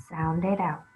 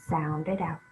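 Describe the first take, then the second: The two takes are said the same way.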